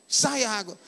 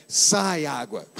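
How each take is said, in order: First: Said in the usual way. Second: Slow, low, drawn-out "Sai água"; correct intonation. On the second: Shown as a demonstration. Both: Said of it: "Tem que falar com a entonação correta".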